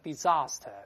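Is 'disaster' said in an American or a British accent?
British. It is said in a British accent.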